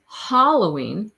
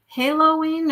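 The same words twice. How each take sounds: First: Halloween as "HALL-oh-ween", slowly; first choice, "hall". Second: Halloween as "HAY-lo-ween", pitched up; second choice, "halo". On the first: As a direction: open Halloween with the vowel of "hall". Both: Shown as a demonstration. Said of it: "So there was two choices".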